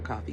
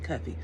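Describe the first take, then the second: First: The first syllable sounds like 'cough'. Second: The first syllable sounds like 'cuff'. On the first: The speaker calls it wrong. "not Coffee" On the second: The speaker calls it right.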